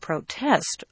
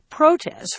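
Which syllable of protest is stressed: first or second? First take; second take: second; first. First: The stress is on the second syllable. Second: The stress is on the first syllable. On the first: "you can protest all you want" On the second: "often people will say protest for both the noun and the verb"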